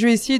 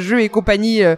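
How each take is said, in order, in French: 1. Le dernier mot est raccourci à une syllabe. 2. Le dernier mot est prononcé en entier. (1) "par contraction, on commence à tous le dire" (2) "mais c'est bien jeu et compagnie, le nom en entier"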